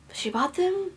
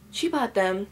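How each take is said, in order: First: "them" lifted high at the end; rising stress on THEM. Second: "she" stressed, then falling away on "bought them". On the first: Daughter conceding mom bought the box set, rising on "them". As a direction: let "them" climb, leaving it hanging. Repeats line, moving the emphasis. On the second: Daughter clarifying who paid for the books, stress on "she". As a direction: lean on "she" and settle downward. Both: Real, not acted.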